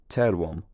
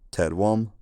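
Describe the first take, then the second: First: The stress is on the first syllable. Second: The stress is not on the first syllable. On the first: This is the later pronunciation. "people started stressing words on the first syllable" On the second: This is the older pronunciation. "Instead of terwom"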